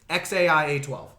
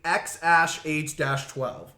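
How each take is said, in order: First: The second part is said as letters A I. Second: The second part is said as the word ash. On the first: This is the mother's version of the name. "You actually have to pronounce it X A I A twelve" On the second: This is the father's version of the name. "Elon Musk says A E means ash"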